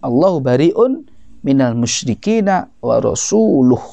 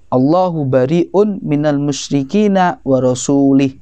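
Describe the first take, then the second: First: The last word ends with a 'u' vowel. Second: The last word ends with an 'i' vowel. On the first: God and His messenger are free of the polytheists. The speaker calls it right. "Kemudian dibetulkan" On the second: God is free of the polytheists and of His messenger. The speaker calls it wrong. "baca Quran salah"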